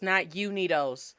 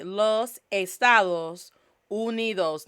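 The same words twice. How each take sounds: First: Unidos with an English you sound; anglicized wrong way. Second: Slow model for repeating. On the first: Host showing the anglicized mistake, Unidos with English you. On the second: Host having viewers repeat los Estados Unidos, slow. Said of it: "say it with me". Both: Shown as a demonstration.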